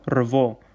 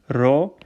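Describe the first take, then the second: First: A v sound follows the r. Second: No v sound follows the r. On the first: The speaker calls it wrong. "it's not revo" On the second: The speaker calls it right. "So the syllable here here is ro"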